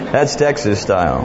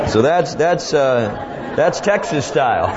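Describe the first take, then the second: First: Said in the usual way. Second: Said through a laugh, higher. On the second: Real, not acted. Preacher savors his own punchline, laughing. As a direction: chuckle out the words Texas style.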